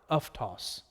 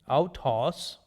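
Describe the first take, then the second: First: The first syllable has an 'f' sound. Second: The first syllable has an 'ow' diphthong. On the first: This is the Koine modern pronunciation. "What would be the Koine modern? ... So that is pronounced as uf" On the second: This is the classical Erasmian pronunciation. "autos would be the classical Erasmian pronunciation"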